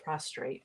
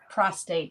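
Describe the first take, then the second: First: An r sound follows the t. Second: There is no r sound after the t. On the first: The speaker calls it wrong. "not prostrate. I always say it wrong" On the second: The speaker calls it right. "Pros prostate"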